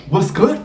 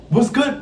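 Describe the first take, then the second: First: Higher, louder call of what's good; calling out to God. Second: What's good pushed even higher; higher plea to God. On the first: To God, complaining about unpaid modeling, calling out higher. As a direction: call up to the sky asking what's up. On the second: To God, repeating the question, pitched higher still. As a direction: repeat it higher, pressing harder. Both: Retold or imitated.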